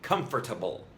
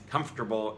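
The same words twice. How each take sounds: First: All syllables are pronounced fully. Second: A syllable is cut or merged. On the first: "instead of" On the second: "we either cut out a syllable or condense two syllables"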